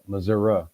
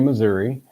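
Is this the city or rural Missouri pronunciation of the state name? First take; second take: rural; city. First: It uses the rural southwestern Missouri pronunciation. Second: It uses the urban Missouri pronunciation. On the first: The speaker is from a rural area. "people more rural, going to the southwest, uh, will say uh" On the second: The speaker is from the city. "The city people will say Missouri"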